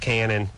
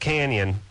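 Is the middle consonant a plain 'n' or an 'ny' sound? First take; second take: n; ny. First: The middle consonant is a plain 'n'. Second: The middle consonant is an 'ny' sound. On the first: This is how locals usually say it. "everyone always called it Cannon" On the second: This is the original Spanish pronunciation. "it should be pronounced Canyon"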